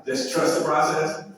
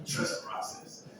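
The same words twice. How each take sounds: First: Trust the process, rising on process; emphatic repeat. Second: Trust the process, dropped to a hushed echo; softer echo. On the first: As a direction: lift the word process at the end. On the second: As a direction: let it fall away quietly. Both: Shown as a demonstration.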